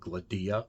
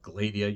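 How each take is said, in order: First: The stress is on the second syllable. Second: The stress is on the first syllable. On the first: The speaker calls it right. "it is on the second syllable, the D" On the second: The speaker calls it wrong. "Instead of"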